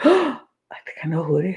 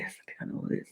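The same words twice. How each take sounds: First: Quick, eager discovery; excited realisation. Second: Secretive whisper, much softer. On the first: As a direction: blurt it out fast, thrilled. Jane's confessional realisation. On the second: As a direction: breathe it like a secret. Jane's confessional realisation, repeated. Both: Retold or imitated.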